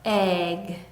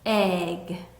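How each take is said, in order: Both takes have the same delivery.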